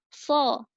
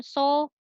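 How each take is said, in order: First: So with the tongue tip between the teeth, thick and slow; correct so. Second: So said as a plain s with o, tongue behind the teeth; so with a thin hissing s and o; wrong so. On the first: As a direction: say so as a thick lisped th-o, drawn out. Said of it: "tapi so". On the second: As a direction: say so like sa with an o vowel, the wrong way. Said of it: "Huruf so ini bukan huruf sa berharokat o". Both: Shown as a demonstration.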